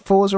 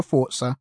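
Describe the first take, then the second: First: "Forza" said as "For-za", plain z; Forza with soft z. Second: "Forza" said as "Fort-sa". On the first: Host asking which way is right, "Forza" as "For-za". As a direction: say "Forza" with a buzzing z, no t. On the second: Host offering the other option, "Forza" as "Fort-sa". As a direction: put a t before the z in "Forza". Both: Shown as a demonstration. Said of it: "Is it Forza or Forza?".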